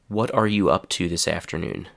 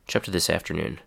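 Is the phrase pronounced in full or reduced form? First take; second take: full; reduced. First: Each opening word is said separately and clearly. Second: The opening words blur together into one short chunk.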